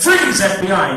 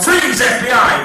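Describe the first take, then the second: First: Louder, firmer freeze call; shouted command. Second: Loud FBI bust yell; shouted command. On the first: Hypnotist repeating the spy's shout, loud. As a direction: yell it like a cop. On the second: Hypnotist demonstrating the spy's shout, loud. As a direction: bark it like an agent arresting someone. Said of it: "and you shout". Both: Shown as a demonstration.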